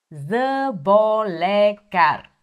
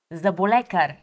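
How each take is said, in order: First: Заболекар drawn out slowly, syllable by syllable; slow for repeating. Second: Said in the usual way. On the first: Shown as a demonstration. Teacher to learners, slowly modelling заболекар. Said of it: "plain take before slow repeat". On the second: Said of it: "repeat after me (slow repeat follows)".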